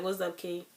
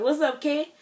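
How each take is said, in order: First: Said in the usual way. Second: Higher and louder, a bright rising hello; cheery greeting. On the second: Retold or imitated. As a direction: call it out like a boss breezing in. Manager greets her at the sink.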